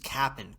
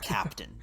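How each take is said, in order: First: The middle 't' sound is dropped. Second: The middle 't' sound is clearly pronounced. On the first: The speaker calls it right. "it's just Cap'n Crunch" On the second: The speaker calls it wrong. "It's not Captain"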